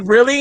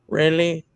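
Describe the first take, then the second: First: Touch of annoyed disbelief; mildly mad. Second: Low, soft, deadpan annoyance; mad. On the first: Daughter retelling her reaction to dad, mildly mad. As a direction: retell an irritated question in a near-usual pitch. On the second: Daughter told there's no bottle at the house, mad. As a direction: drop the voice low and quiet, unimpressed. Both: Retold or imitated. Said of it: "I was just so mad".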